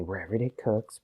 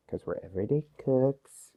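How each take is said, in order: First: Said in the usual way. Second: Breathy whispered aside. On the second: Real, not acted. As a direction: whisper the catchphrase to the camera. Running catchphrase whispered aside.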